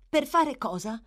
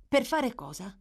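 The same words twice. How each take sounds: First: Higher, louder echo of the question; Nancy echoing. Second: A quick, startled asking; startled question. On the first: Girl echoes the boy's question back, evasive echo. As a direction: throw his words back at him. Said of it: "gli fece eco Nancy". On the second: Boy startled by Nancy's order, startled question. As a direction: jump at the idea and ask. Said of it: "domandò lui trasalendo". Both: A narrator's reading.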